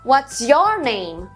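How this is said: The stress falls on the word your.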